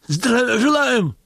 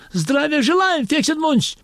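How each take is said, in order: First: High, slow, drawn-out shouted salute; shouted greeting. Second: High, stiff salute greeting; stiff soldier's greeting. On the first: Convict actor jumping up to salute Dzerzhinsky, shouting slowly. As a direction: snap to attention and shout it. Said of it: "крикнул он". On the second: Convict actor greeting Dzerzhinsky, high and stiff. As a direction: bark it up like an awkward private. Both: Acted.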